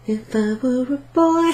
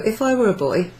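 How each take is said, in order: First: Sung, break playfully into song on this phrase. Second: Said in the usual way. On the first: Pretend.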